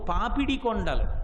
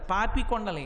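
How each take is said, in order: First: The first word has three syllables, papidi. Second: The first word has two syllables, papi. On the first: The speaker calls it right. "పాపి కొండలు కావు, పాపిడి కొండలు" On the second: The speaker calls it wrong. "ఎంత అసహ్యంగా ఉచ్చరిస్తున్నామంటే మనం పాపి కొండలు"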